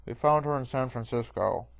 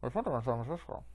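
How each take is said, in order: First: Lightly voiced guard, louder; guard through helmet. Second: Fast, muffled joke take; comically muffled guard; muffled helmet voice. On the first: A narrator's reading. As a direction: report it firmly from inside a helmet. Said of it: "says through his helmet". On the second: Pretend. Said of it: "I should be holding a popkin".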